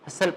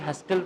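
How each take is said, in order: First: The t sound is silent in the middle. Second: The t sound is pronounced in the middle. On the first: The speaker calls it right. "हसल पढ़ते हैं" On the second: The speaker calls it wrong. "आप कभी भी हस्टल तो नहीं ना पढ़ते"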